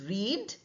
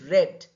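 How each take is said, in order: First: The vowel is long, like in 'reed'. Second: The vowel is short, like in 'red'. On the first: It is the present tense. "The verb here is read" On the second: It is the past tense. "the same spelling is for the past also, but it is pronounced as read"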